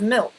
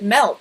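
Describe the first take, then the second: First: The word has a plain, ordinary vowel. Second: The word has a Canadian-sounding vowel. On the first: "instead of milk" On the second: "why did I just pronounce it milk"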